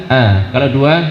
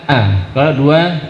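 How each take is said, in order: No difference in how they are said.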